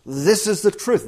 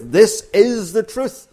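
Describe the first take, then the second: First: Said in the usual way. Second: "This is the truth" 放慢、更响，每个词都压重; slow emphatic repeat. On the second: Shown as a demonstration. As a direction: lean on every word of "This is the truth", slow and loud. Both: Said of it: "It's for emphasis".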